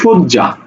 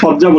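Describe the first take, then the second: First: The first vowel is an 'o' sound. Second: The first vowel is an open 'a' sound. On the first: The speaker calls it right. "সোদ জয়াকারে যা" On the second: The speaker calls it wrong. "সজ্জা বলি না"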